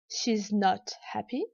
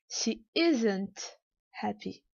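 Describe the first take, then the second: First: She and is merge into one syllable. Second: Is and not merge into one word. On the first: "peut se dire" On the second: "ou bien"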